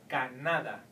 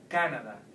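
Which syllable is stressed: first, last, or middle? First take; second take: middle; first. First: The stress is on the middle syllable. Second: The stress is on the first syllable. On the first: "you will have to pronounce it like in the vowel rule" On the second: "If you try at the top here in ca, it would sound more like English"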